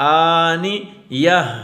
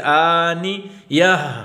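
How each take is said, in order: The two takes are said the same way.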